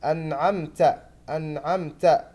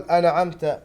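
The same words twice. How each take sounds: First: أنعمت with a clear sounded نون and open عين; clear nun. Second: أنعمت with the نون hidden and the عين not open; wrong أنعمت; wrong reading. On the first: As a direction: show أنعمت with a distinct نون. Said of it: "بإظهار النون الساكنة وفتح العين". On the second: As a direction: show the mistaken أنعمت. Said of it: "ولا نقول". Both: Shown as a demonstration.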